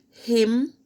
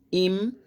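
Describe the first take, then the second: First: Said in the usual way. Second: "him" said as "im"; dropped H. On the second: Shown as a demonstration. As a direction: start "him" straight on the vowel. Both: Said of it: "the H is never pronounced".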